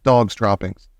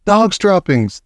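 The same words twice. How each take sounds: First: Said in the usual way. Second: Shouting. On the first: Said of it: "taken up the dreaded cry". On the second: A narrator's reading. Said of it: "they shouted".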